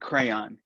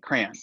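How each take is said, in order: First: The word is carefully enunciated in a standard way. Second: The word is said in a Midwestern accent. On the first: "I'm enunciating Crayon" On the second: "my native way of saying it's like crayon"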